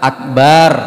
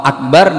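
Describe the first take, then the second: First: A vowel is drawn out noticeably long. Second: The vowels are kept at normal short length. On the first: The speaker calls it wrong. "dibaca panjang" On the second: The speaker calls it right. "tidak panjang"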